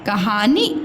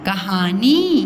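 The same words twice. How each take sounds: First: The final vowel is short. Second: The final vowel is long. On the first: The speaker calls it wrong. "ये गलत है" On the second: The speaker calls it right. "न में बड़ी की मात्रा नी"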